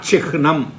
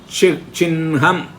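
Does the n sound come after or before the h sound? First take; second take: after; before. First: The n sound comes after the h sound. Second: The n sound comes before the h sound. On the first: The speaker calls it wrong. "not Chihnam" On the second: The speaker calls it right. "Then Chinham"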